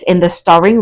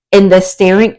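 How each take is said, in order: First: "starring" with an open "ar" sound; corrected word. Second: "staring" misread for "starring", rhyming with "caring"; misread word. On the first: Tarot reader restarting her card text, saying "starring" correctly. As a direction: say "starring" with the vowel of "star". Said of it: "let's start again". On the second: Tarot reader stumbling over her card text, misreading "staring". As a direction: say "staring" with the vowel of "stair". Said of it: "oh, okay, can I speak?". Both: Real, not acted.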